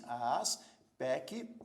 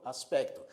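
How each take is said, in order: First: "aspecto" slowly split into syllables with gaps. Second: Said in the usual way. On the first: Shown as a demonstration. Teacher showing syllable division to learners, "aspecto" broken into slow syllables. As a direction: say "aspecto" as as, pec, to, pausing between syllables. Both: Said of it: "você divide as sílabas de aspecto assim".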